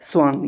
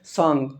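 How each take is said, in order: First: The word begins with a 'swa' sound. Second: The word begins with a plain 'sa' sound. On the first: This is the standard correct form. "शुद्ध शब्द कौन सा है? स्वांग।" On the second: This is the everyday village form. "गाँव में सांग बोलते हैं"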